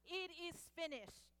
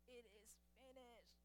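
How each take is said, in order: First: It is said loudly and clearly, ringing out. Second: It is said weakly, barely getting out.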